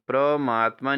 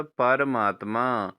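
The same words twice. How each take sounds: First: परमात्मा said as "pra-maatma"; wrong pronunciation. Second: परमात्मा slowly, p and r separate; correct pronunciation. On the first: Teacher shows students the error, परमात्मा as "pramaatma". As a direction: merge p and r in परमात्मा. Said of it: "नहीं होता". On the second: Teacher corrects students, परमात्मा slowly as "paramaatma". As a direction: draw out परमात्मा as "para-maat-maa". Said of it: "प और र अलग-अलग होते हैं". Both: Shown as a demonstration.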